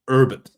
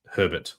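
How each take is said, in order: First: It is said in an American accent. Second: It is said in an Australian accent.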